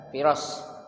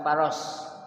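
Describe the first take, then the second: First: The first vowel sounds like 'i'. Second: The first vowel sounds like 'a'. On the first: The speaker calls it right. "Jadi dibaca Firas" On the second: The speaker calls it wrong. "bukan Faros"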